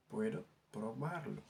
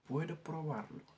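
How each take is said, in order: First: Slow model for the class to repeat; slow careful repeat. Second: Said in the usual way. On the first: Shown as a demonstration. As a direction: say Puedo probarlo slowly, stressing probarlo. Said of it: "teacher repeats the phrase slower". (waxaat ko ndànk ndànk) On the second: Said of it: "teacher models the Spanish phrase".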